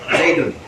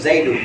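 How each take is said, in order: First: The word ends in a vowel plus n. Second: The word ends in a plain vowel. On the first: The speaker calls it wrong. "nggak boleh Zaidun" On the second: The speaker calls it right. "Ya rojulu Zaidu"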